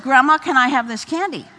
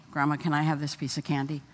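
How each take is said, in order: First: Louder, higher, pushy repeat with a laugh; lightly voiced toddler pressing his case; insistent little boy. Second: Put-on softer, quick, sweet child's request; lightly voiced toddler asking nicely; polite little boy asking. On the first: Grandson asking grandma again after mom refused, louder and insistent. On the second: Grandson politely asking grandma for candy, soft and quick.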